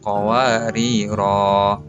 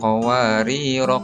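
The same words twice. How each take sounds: First: The final vowel is lengthened at a stop. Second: The final vowel is short, running on. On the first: The reader stops on this word. "dibaca agak panjang sedikit karena dia diwakafkan" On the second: The word is read joined to the next. "roknya dibaca satu harokat saja"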